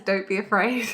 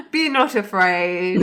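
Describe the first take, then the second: First: Said in the usual way. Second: Mock solemn angel. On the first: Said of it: "He says". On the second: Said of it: "rephrase joke, laughter".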